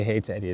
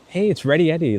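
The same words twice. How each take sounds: First: Said in the usual way. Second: Full name called out brightly; Ready Eddie, said high and lively; excited. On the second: Retold or imitated. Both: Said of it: "they won't just say".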